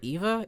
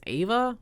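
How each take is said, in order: First: The name begins with an 'ee' sound. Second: The name begins with an 'ah' sound. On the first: The speaker calls it wrong. "is it not Eva?" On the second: The speaker calls it right. "It's Ava?"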